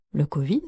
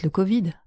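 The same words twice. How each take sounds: First: "covid" with a sharp rise at the end; questioning echo. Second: Said in the usual way. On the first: Acted. Narrator reacts to the covid suggestion, questioning echo.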